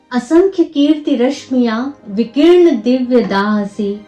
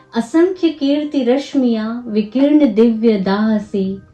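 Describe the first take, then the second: Both takes have the same delivery.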